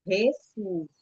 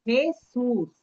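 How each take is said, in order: First: Jesus again with a throaty H, HEsus, calm and falling; Jesus em espanhol de novo, J como H; Spanish J repeated. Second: Jesus with the J as a throaty H, HEsus; Jesus pronunciado em espanhol, J aspirado; Spanish J. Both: Shown as a demonstration. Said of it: "O som da J muda".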